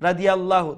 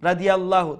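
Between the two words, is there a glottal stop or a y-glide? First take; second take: glottal stop; glottal stop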